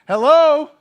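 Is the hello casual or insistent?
insistent. It is an insistent, incredulous wake-up call.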